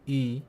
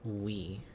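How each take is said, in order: First: One steady rounded front vowel, like French u. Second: A w glide followed by an ee vowel. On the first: This is the older pronunciation. "It used to be pronounced um a, a Y in I P A is um like the French U" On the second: This is the current pronunciation. "it is now pronounced we"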